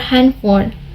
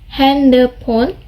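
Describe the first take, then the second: First: The last part starts with an f sound. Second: The last part starts with a p sound. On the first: This is how it is said in English. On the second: This is how it is said as a Korean loanword.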